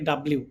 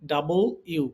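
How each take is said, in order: First: The letter name is clipped into quick syllables. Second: The letter name is spoken as full 'double you'. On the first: The speaker calls it wrong. "আমরা এভাবে উচ্চারণ করে থাকি" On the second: The speaker calls it right. "এটার exact উচ্চারণ হচ্ছে"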